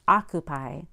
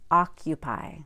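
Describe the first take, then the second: First: No 'y' sound comes before the 'u' vowel. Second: A 'y' sound comes before the 'u' vowel. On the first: The speaker calls it wrong. "It's not" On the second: The speaker calls it right.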